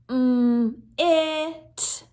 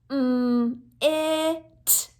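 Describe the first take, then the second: Both takes have the same delivery.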